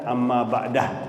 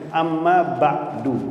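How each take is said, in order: First: The last word ends with an 'ah' sound. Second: The last word ends with an 'oo' sound. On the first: This is how some people say it now. "Sebab sekarang ada amma ba'dah" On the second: This is how the Prophet said it. "Rasulullah kalau setelah khutbah"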